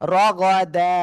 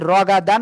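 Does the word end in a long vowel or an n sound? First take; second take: long vowel; n sound. First: The word ends with a drawn-out a vowel. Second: The word ends with an n sound. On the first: The speaker calls it right. "এক জবর বাদ দিয়ে একালিপ টেনে পড়বো" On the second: The speaker calls it wrong. "তাহলে কি রগা দান হবে নাকি? না"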